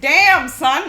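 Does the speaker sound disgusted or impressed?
impressed. It sounds impressed and admiring. The person smells good. The speaker calls it right. "you want to go like"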